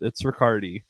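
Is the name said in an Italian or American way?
American. The name is said the American way.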